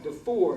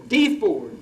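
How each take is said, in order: First: The name is said in a non-Southern way. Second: The name is said the Southern way. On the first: The speaker calls it wrong. "I used to think it was pronounced DeFord" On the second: The speaker calls it right. "until I heard some Southerners pronounce it"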